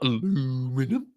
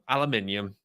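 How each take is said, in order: First: The word is said with four syllables. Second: The word is said with five syllables. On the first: The speaker calls it wrong. "not aluminum" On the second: The speaker calls it right. "that's how you're supposed to pronounce it"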